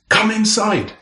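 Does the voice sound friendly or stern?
stern. It is said in a sharp, stern tone. The listener is in trouble. "that's a very different story altogether"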